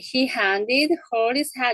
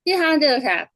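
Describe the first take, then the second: First: Every h sound is clearly pronounced. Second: The h sounds in unimportant words are dropped. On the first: "이렇게 발음하면 좋겠지만" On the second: "이렇게 발음하죠"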